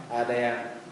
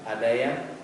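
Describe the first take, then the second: No difference in how they are said.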